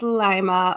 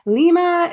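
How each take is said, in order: First: The name is pronounced in a plain way. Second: The name is pronounced in a fancier way. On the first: The speaker calls it right. "but it's Lima, Ohio" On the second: The speaker calls it wrong. "It sounds fancier that way"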